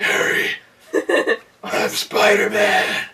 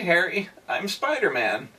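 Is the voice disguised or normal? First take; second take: disguised; normal. First: It is spoken in a deep, gravelly put-on voice. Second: It is spoken in an ordinary, undisguised voice. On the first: The speaker is trying to hide his identity. "tried to put on the Bat voice" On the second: The speaker's identity is obvious. "in his normal voice"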